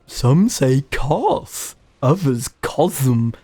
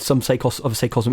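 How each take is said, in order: First: It is said in a put-on character voice. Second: It is said in a natural speaking voice. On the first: "that was terrible" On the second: "in my own voice"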